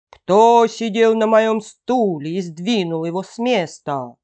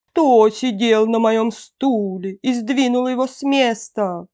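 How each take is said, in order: First: Slightly hammed big-bear roar; fearsome bear growl. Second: Mother-bear growl, a little held back; softened bear growl. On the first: Big bear sees his chair moved, fearsome growl. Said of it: "зарычал страшным голосом". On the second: Mother bear sees her chair moved, milder growl. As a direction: growl it, short of a full roar. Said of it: "зарычала не так громко". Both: A narrator's reading.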